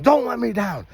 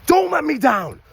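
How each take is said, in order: First: Mild mock yell of the kids; imitated kids' scream. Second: Chanted, high, loud, fired-up call; chanted, show the kids how to say it with full energy; hyped demo chant. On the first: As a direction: echo the kids' answer, a little less hyped. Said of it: "And then they scream". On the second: Shown as a demonstration. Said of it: "look your partner right in the eyes and say".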